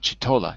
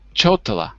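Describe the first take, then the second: First: The first syllable sounds like 'chi'. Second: The first syllable sounds like 'cho'. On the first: The speaker calls it wrong. "not chitola" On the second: The speaker calls it right. "not chitola"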